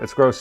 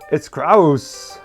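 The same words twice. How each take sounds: First: It is said in a normal speaking voice. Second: It is said in a put-on character voice.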